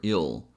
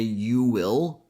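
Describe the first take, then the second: First: The words are squeezed into one quick syllable. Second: Both words are said fully and separately. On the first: "That's how we pronounce you will a bit faster" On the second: "she doesn't say you will"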